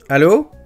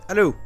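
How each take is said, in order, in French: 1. La voix est captée plus fort. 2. La voix est captée faiblement.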